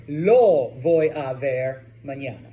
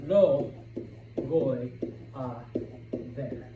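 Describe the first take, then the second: First: Said in the usual way. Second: "Lo" "voy" "a" "ver" each said alone with long pauses; slow word by word. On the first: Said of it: "I'm sorry". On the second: Shown as a demonstration. Teacher to Spanish learners, spacing every word apart. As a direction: spell out "Lo voy a ver" one word at a time.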